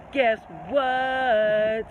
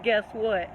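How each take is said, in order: First: Teasing reveal. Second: Said in the usual way. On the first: Real, not acted. Repeated with drawn-out relish.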